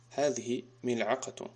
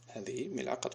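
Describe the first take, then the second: First: Slow, deliberate classroom reading; slow model answer. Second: Softer, quicker second reading; soft repeat. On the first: Teacher models the answer slowly for pupils. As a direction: draw out each word for learners. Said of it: "teacher models the answer". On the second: Teacher repeats the answer softly to himself. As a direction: drop the voice for the echo. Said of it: "teacher repeats the answer". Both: Shown as a demonstration.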